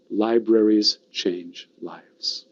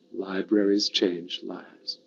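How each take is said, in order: First: Slow, spaced-out key phrase; measured slogan. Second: Slow, softer repeat of the slogan; leading a recital. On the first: Speaker models the slogan for the audience, slow and deliberate. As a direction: give each word its own weight, very slowly. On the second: Speaker leads the audience in saying it together, slow and hushed. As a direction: lead a group through it slowly and quietly. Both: Shown as a demonstration. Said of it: "Say it with me".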